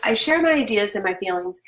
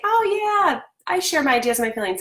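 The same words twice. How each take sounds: First: Said in the usual way. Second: Breezy "Oh yeah" jumping way higher, then a quick, offhand "I share my ideas and my feelings"; glib adult agreeing. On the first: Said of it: "what I wanna break down is this". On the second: Retold or imitated. Mom mimicking every adult's easy agreement, breezy and fast. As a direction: toss it off like it's obvious. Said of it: "Every adult would say".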